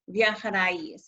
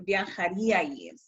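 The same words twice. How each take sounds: First: "viajaríais" with the stress wrongly off the í, on the following a; misplaced stress. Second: "viajaríais" with the beat on the í, viajaRÍais; stress on accented í. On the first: Teacher showing students the wrong way, misplaced stress on "viajaríais". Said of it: "And it's not viajaríais". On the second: Teacher correcting the pronunciation for students, stress on the í of "viajaríais". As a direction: lean on the í in "viajaríais". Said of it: "it's viajaríais". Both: Shown as a demonstration.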